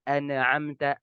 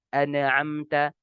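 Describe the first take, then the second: No difference in how they are said.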